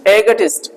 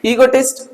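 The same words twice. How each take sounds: First: एगोटिस्ट with a short e at the start; एगोटिस्ट, first vowel a short e, said with a little laugh; short e version. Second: ईगोटिस्ट with a long ee at the start; ईगोटिस्ट opened with a long ee vowel; ee sound version. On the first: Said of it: "इसको एक और तरीके से प्रोनाउंसिएट करते हैं". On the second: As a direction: say ईगोटिस्ट starting on ee, then -tist. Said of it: "चाहो तो आप ऐसे ही बोल सकते हो". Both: Shown as a demonstration.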